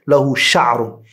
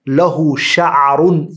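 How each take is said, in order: First: No vowel follows the middle consonant. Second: A short vowel follows the middle consonant. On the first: "he chose to place a sukun on it and say" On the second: "They say"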